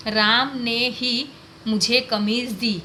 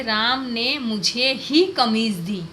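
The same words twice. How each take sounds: First: "राम ने ही" said slowly, with राम pushed up and held; stress on राम. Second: "मुझे ही" said slowly and lifted, the rest kept even; stress on मुझे ही. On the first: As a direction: lean hard on "राम ने ही" to show only Ram gave it. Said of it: "राम पर बल दिया". ("राम" पर ज़ोर देकर, धीरे-धीरे) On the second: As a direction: hit "मुझे ही" to show it was me and nobody else. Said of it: "और तरीके से भी बोल सकते हैं". ("मुझे ही" पर ज़ोर देकर, धीरे-धीरे) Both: Shown as a demonstration.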